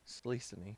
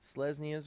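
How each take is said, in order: First: The name starts with a single 'slee' syllable. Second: The name starts with two syllables, 'se-les'. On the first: This is an old habit of saying it. The speaker calls it wrong. "Sleesony is how I used to say it" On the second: This is the accepted way to say it. The speaker calls it right. "There we go"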